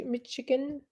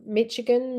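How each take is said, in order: First: Michigan said softly with a "sh" in the middle. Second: Michigan said with a hard "tch", as in "Mitch". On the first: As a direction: say "Michigan" as "Mish-igan", quietly. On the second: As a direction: say "Michigan" with a ch sound in the middle. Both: Shown as a demonstration. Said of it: "Look at my pronunciation".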